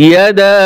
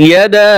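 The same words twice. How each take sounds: No difference in how they are said.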